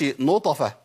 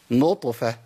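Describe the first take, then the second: First: "نطفة" wrongly said "notafa"; qalqala turned to fatha. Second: "نطفة" with a short bounce on a vowelless ط; correct qalqala. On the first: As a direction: put a full "a" after the ط in "نطفة". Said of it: "ما أقولش نطفة". ("نطفة" بفتح الطاء غلط) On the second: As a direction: keep "نطفة" two syllables, ط lightly released. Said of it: "لا،". ("نطفة" بطاء ساكنة مقلقلة) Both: Shown as a demonstration.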